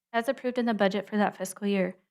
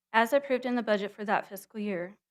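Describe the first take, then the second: The two takes are said the same way.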